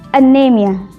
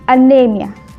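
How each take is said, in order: No difference in how they are said.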